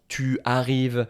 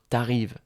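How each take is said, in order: First: The pronoun keeps its full vowel. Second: The pronoun loses its vowel before the verb. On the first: The speaker calls it wrong. "on ne va pas dire ça" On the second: The speaker calls it right. "Je vais dire t'arrives"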